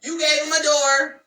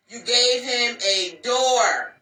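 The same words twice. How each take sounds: First: Higher and louder, hammering the point; emphatic repeat. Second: Slow, spaced out, each word landed; slow emphatic. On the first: Telling the ladies their mistake, loud emphatic repeat. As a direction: punch it up high and loud. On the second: Warning the ladies, slow deliberate repeat. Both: Shown as a demonstration.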